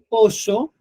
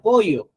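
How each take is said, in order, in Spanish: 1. Se dice con acento argentino. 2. Se dice con acento peruano. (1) "un argentino dirá este pollo" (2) "un peruano dirá pollo"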